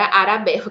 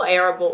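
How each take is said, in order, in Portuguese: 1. O nome é falado do jeito português. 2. O nome é falado do jeito inglês. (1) "que é assim que os meus, meus alunos traduzem" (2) "Eu falo Arable, assim"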